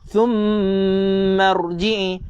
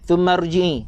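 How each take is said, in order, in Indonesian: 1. Bunyi sengau m ditahan panjang. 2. Bunyi sengau m dipendekkan. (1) "Mim bersabdu kena dengung dua rakaat" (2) "jangan, salah"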